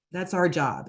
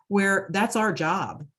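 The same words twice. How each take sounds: First: Said in the usual way. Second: Slowed right down, leaning on "that's our job"; slow emphatic. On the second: Real, not acted. Volunteer coordinator telling a grieving wife, slow and emphatic. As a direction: drag out "that's our job" to drive it home.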